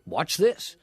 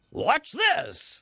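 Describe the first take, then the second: First: Said in the usual way. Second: High, drawn-out showman's cry; television voice. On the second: Shown as a demonstration. Presenter showing off an eel trick on television, in a high showy TV voice. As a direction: sell it to the TV audience. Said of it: "You have to talk like that on television".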